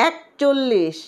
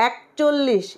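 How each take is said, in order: Both takes have the same delivery.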